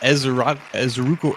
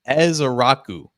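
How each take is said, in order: First: The surname is fumbled, guessed at haltingly. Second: The surname is said smoothly and deliberately. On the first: The speaker calls it wrong. "I tried to fumble through" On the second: The speaker calls it right. "There we go"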